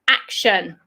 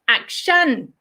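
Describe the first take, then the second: First: It is said the British way, pitch going down. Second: It is said the way Thai speakers say it. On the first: "British English, we say action" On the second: "in Thai, you tend to say action"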